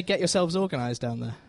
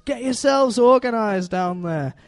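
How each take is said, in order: First: Said in the usual way. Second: Higher, drawn-out cartoon northern English voice; Wallace impression. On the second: Wallace to the bundle of sheep, put-on slow, higher voice. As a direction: stretch it out slowly, pitched up, in amateur Yorkshire style. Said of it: "where Wallace looks down".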